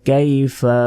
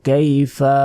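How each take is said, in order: The two takes are said the same way.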